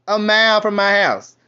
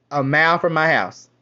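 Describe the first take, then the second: First: "A mile from my house" louder, stressing "mile"; emphatic repeat. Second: Said in the usual way. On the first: Shown as a demonstration. Complaining about Jamaican deli nearby, louder emphatic repeat. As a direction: punch "mile" harder the second time. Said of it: "repeated louder". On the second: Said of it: "repeats for emphasis".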